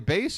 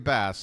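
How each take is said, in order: First: The vowel rhymes with 'face'. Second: The vowel rhymes with 'mass'.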